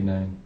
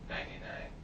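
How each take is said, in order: First: It is spoken in a normal voice. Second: It is whispered.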